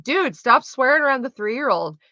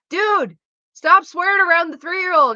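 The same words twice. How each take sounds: First: 1 exasperated telling-off. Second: Much higher, louder exasperated telling-off; exasperated scolding. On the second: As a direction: scold him, fed up at last. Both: Retold or imitated. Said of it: "I'm like".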